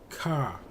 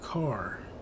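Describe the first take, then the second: First: It is said without the R sound. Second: It is said with the R sound.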